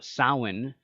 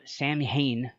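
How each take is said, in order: First: It is said like sow-in, without m or h. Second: It is said like sam-hain, with m and h. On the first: The speaker calls it right. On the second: The speaker calls it wrong.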